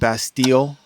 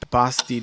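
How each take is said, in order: First: The word is said with an American pronunciation. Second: The word is said with a French pronunciation. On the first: "Americans might pronounce it Bastille" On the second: "is what the French say"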